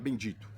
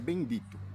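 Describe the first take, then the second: First: It is said in a plain, ordinary tone. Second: It is said in a weepy, tearful tone. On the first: This is how it was said normally. "Você não pode mais falar bendito" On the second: It imitates the church leadership's preaching style. "esse tom, sabe, choroso"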